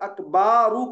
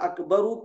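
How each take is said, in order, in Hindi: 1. b के बाद का स्वर खींचकर लंबा किया जाता है। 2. b के बाद का स्वर छोटा है।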